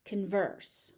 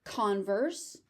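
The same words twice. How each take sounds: First: "converse" as con-VERSE, second syllable stressed; verb stress. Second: "Converse" as CON-verse, first syllable stressed; noun stress. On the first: Teacher recapping noun against verb, second-syllable stress. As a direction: reduce the first vowel of "converse", stress VERSE. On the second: Teacher recapping noun against verb, first-syllable stress. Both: Shown as a demonstration. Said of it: "the stress shifts depending on".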